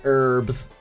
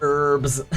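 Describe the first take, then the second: The two takes are said the same way.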